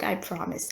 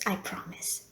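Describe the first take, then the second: First: Said in the usual way. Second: "I promise" whispered, much softer; whispered repeat. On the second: Acted. Receptionist promising no more jokes, whispered. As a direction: breathe "I promise" again under the breath. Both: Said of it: "The last joke, I promise".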